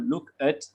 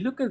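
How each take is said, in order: First: The two words are said separately, not joined. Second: The two words are joined together smoothly. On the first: The speaker calls it wrong. "we don't say look uh, look at or look at" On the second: The speaker calls it right. "but we link"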